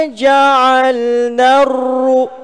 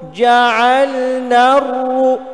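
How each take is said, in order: First: The r is trilled only briefly, short. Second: The same.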